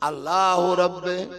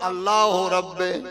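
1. শেষ শব্দটি 'e' ধ্বনিতে শেষ হয়েছে। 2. শেষ শব্দটি 'e' ধ্বনিতে শেষ হয়েছে।

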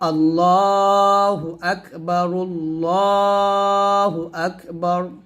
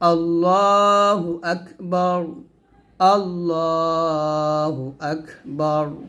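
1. বাক্যটি বিরতি ছাড়া একসাথে জোড়া লাগিয়ে বলা হয়। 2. বাক্যটি বিরতি দিয়ে ভেঙে ভেঙে বলা হয়। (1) "এরকম বলতে পারি" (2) "অথবা ভেঙে বলতে পারি"

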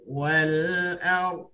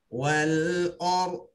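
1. Vokal sebelum r adalah a terbuka. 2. Vokal sebelum r berbunyi seperti o. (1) "kena jaga wal-A" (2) "dia akan berbunyi wal or, bunyi o"

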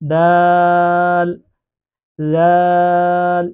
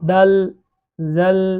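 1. স্বরগুলো তিন মাত্রা টেনে পড়তে হয়। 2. স্বরগুলো শুধু অল্প সময়ের জন্য টানা হয়। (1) "তিন আলিফ পরিমাণ টান দিয়ে এই দুটি অক্ষরকে পড়তে হবে" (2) "এইভাবে পড়া যাবে না"

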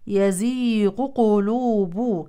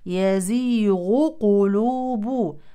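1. يندمج صوت gh في صوت q واحد. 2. يُنطق صوت gh بوضوح قبل q.

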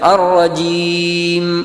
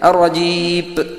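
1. വാക്ക് ചെറിയ മൂക്കൊലി m ശബ്ദത്തിൽ അവസാനിക്കുന്നു. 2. വാക്ക് p ശബ്ദത്തിൽ അവസാനിക്കുന്നു. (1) "അൻഅംതയിൽ പറയുന്നത് പോലെ" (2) "ഒന്നെങ്കിൽ ജീപ്പ് എന്നായിരിക്കും"

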